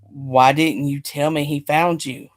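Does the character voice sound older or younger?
older. It is read in an older character voice. The line is voiced as the wrong character. The speaker calls it wrong. "Oh, that was Nikolai. Whoops, not Giovanni"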